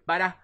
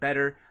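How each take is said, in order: First: The word ends in an ah sound. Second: The word ends in an R sound. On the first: "in Boston you hear beta" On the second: "the ah instead of the er"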